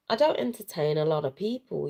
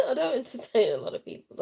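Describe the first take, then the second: First: Said in the usual way. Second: Laughing through the repeat; quick laughing restatement; amused, faster retake. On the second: Real, not acted. Laughing repeat of own line.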